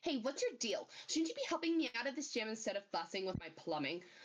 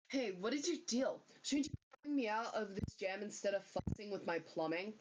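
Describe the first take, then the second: First: It is said in a different character's voice. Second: It is said in the speaker's own character voice.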